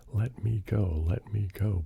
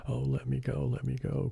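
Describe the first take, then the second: First: Begging. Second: High, frightened little bear crying to be let go; a cub's scared plea, pitched well up. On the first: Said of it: "begged Neddy". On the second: Little bear caught by the alligator, crying out high in fright. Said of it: "cried Neddy". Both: A narrator's reading.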